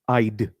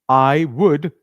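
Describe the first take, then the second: First: It is said as one short contraction. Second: It is said as two full words. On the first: "it becomes I'd" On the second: "I would comes together"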